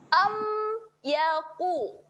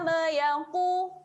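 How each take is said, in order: First: The m closes cleanly with lips pressed together. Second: The m bounces with an added vowel sound. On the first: The speaker calls it right. "kemaskan sahaja makhrajnya, rapatkan bibir" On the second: The speaker calls it wrong. "macam mana bunyi lantunan? Dia akan jadi"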